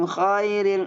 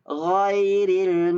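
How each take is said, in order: First: The first sound is a voiceless kh. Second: The first sound is a voiced gh. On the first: The speaker calls it wrong. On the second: The speaker calls it right.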